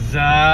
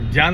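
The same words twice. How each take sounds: First: The word begins with a z sound. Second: The word begins with a j sound. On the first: The speaker calls it right. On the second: The speaker calls it wrong.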